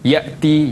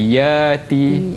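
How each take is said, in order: First: A glottal stop is pronounced before the vowel. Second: The glottal stop becomes a lengthened vowel.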